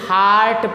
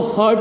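First: The vowel sounds like 'ah'. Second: The vowel sounds like 'er'. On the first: The speaker calls it right. "बल्कि हार्ट पढ़ते हैं" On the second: The speaker calls it wrong. "इसको हर्ट नहीं पढ़ते"

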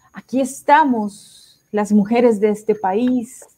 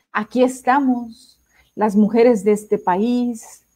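The two takes are said the same way.

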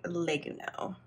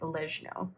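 First: It is pronounced the Japanese katakana way. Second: It is pronounced neither the Italian nor Japanese way. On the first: "in Japanese, ... they pronounce it more like legno" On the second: "we didn't look up the Italian pronunciation. We were pronouncing it like legno"

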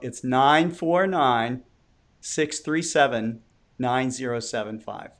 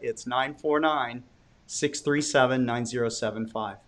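First: The number is said slowly. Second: The number is said at normal speed.

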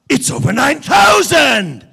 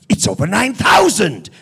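First: The number is stretched out and held long. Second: The number is said quickly and cut short. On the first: "Can you just carry the 9,000 a little bit longer?" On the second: "And make it short"

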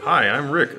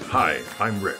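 First: It is said in a normal voice. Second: It is said in a deep movie-announcer voice.

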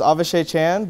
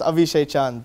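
First: The name is said with an American pronunciation. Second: The name is said with an Indian pronunciation. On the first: This is how people in America say it. "if living in America" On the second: This is how people in India say it. "but living in India"

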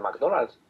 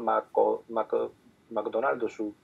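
First: The word is said compactly, without extra vowels. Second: Every syllable gets an added vowel, ending in su. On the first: "Dices, al McDonald's" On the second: "lo dicen de una forma súper rara, porque pronuncian todas las sílabas"

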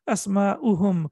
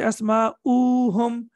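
First: The vowel before 'hum' is short. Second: The vowel before 'hum' is drawn out. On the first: The speaker calls it right. "The pronunciation will not change" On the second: The speaker calls it wrong. "We will not say Asma'uhum. Don't prolong it for 2 seconds"

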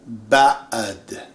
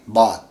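First: The vowel is broken by a throat catch. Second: The vowel runs smoothly with no throat catch. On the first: The speaker calls it right. "You have to learn the pronunciation" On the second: The speaker calls it wrong. "It's not really bad"

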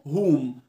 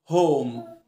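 First: The vowel is a short o sound. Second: The vowel is a long 'oh' sound. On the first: The speaker calls it wrong. "في ناس بتقول على كلمه هوم هوم" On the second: The speaker calls it right. "لا هوم بون اسمه"

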